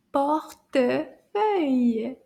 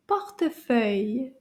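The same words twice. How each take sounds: First: "Portefeuille" very drawn out, syllables apart; slow take. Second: "Portefeuille" joined up as one word; a bit faster. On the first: Teacher pointing out the E sound, slow separated syllables. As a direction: stretch "Portefeuille" slowly, pausing between syllables. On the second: Teacher speeding the word up for class, a bit faster. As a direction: say "Portefeuille" smoothly, without gaps between syllables. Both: Shown as a demonstration. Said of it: "Let's say it a little bit faster".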